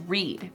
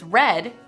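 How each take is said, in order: First: The vowel is long, as in 'reed'. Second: The vowel is short, as in 'red'. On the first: It is the base form of the verb. "The base form is" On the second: It is the simple past form of the verb. "The simple past form is"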